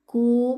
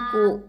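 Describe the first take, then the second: First: The syllable is relaxed and not pressed. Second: The syllable is pressed hard. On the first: The speaker calls it right. "Kakiku tidak ditekan" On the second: The speaker calls it wrong.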